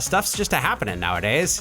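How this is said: It is said in a rural Maine accent.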